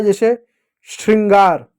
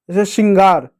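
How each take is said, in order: First: श्रृंगार with the r fully sounded after sh; clearly sounded shri. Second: Said in the usual way. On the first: Shown as a demonstration. Teacher shows children how shri begins the word, श्रृंगार with clear shr. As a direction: articulate "shr" at the start of श्रृंगार. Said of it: "श्री, तो श्री होता है". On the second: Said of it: "तो श्री होता है".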